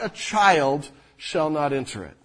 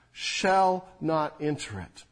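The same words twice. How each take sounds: First: Said in the usual way. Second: "shall" weighted, the whole phrase slow and deliberate; stress on shall. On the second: Shown as a demonstration. Pastor driving home the verse's certainty, slow stress on "shall". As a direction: lean hard on "shall", then ease through "not enter it". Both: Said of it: "Not will not, not may not".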